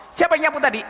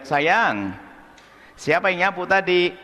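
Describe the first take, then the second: First: Higher, sharp demanding question; mother interrogating, accusing tone; harsh mother. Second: Gentle mother. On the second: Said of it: "seorang tua yang baik". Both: Retold or imitated.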